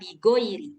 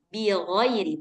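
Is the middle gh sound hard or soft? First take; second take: hard; soft. First: The gh sound is hard, like a plain g. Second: The gh sound is soft, deep in the throat. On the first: The speaker calls it wrong. "bukan bigoiri" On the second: The speaker calls it right. "jadi lunak dia, bilghairi, di ujung tenggorokan"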